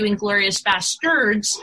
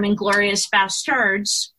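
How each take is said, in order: First: Basterds with an "er" second syllable; misspelled Basterds. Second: Basterds with an accentuated A, as in bastard; extra A in Basterds. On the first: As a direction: say Basterds as "BAS-turds". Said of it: "he changed the spelling". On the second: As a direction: lean on the A of Basterds. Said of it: "I said it, like, extra A". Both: Shown as a demonstration.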